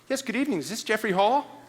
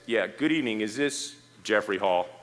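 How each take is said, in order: First: It sounds like an eager salesperson calling. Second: It sounds like an authoritative police officer calling.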